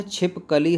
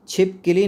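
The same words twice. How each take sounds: First: "छिपकली" slowed, with "ka" in the middle; correct pronunciation. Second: "छिपकली" with "ki" in the middle; wrong pronunciation. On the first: Teacher models the right word, "छिपकली" with clear "kali". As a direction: say "छिपकली" slowly as "chhip-ka-li". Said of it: "होता है". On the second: Teacher rejects a common error, "छिपकली" mispronounced with "kili". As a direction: say "छिपकली" as "chhip-ki-li", higher pitched. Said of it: "नहीं होता है". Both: Shown as a demonstration.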